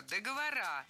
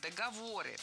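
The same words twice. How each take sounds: First: «Договора» stressed on the final А; incorrect plural договорА. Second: «договоры» stressed on ВО, ending in unstressed ы; correct plural договОры. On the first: Teacher quotes the second mistake, «Договора» stressed on final А. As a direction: land on РА at the end of «Договора». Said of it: "Вторая ошибка". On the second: Teacher offers the better variant, «договоры» stressed on ВО. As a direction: hit the third syllable, ВО, in «договоры». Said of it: "Более корректный вариант". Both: Shown as a demonstration.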